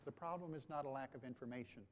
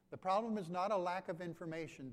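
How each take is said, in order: First: Said in the usual way. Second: The repeat of "The problem is not a lack of information" said louder and firmer, leaning on "not"; emphatic repeat. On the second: Real, not acted. Pastor to congregation, repeating the point, louder and firmer.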